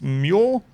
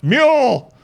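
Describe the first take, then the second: First: The name is said at normal volume. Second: The name is yelled loudly. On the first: The speaker calls it wrong. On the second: The speaker calls it right.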